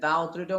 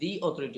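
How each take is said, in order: First: 'The' is said with a short 'uh' vowel. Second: 'The' is said with a long 'ee' vowel. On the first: The speaker calls it wrong. "এটা দা authority হবে না" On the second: The speaker calls it right. "দি authority হবে"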